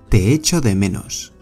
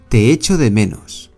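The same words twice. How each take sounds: Both takes have the same delivery.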